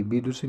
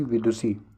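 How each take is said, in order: First: विदुषी said as "bidusi"; wrong b sound. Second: विदुषी said as "vidusi"; correct v sound. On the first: Teacher rejects a misspelling, b at the start of विदुषी. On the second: Teacher gives the right spelling, v at the start of विदुषी. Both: Shown as a demonstration. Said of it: "विदुषी नहीं".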